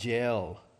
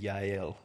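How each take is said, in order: First: The name is said with a Southern pronunciation. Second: The name is said with a Hebrew pronunciation. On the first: "I'm giving you southern pronunciation" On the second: "That would be Yael in Hebrew"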